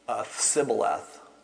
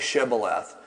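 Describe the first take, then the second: First: The word begins with an s sound. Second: The word begins with an sh sound. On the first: The speaker belongs to that group. The speaker calls it wrong. "They would say Sibboleth instead of Shibboleth" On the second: The speaker is not from that group. The speaker calls it right. "Ask him to say this word Shibboleth"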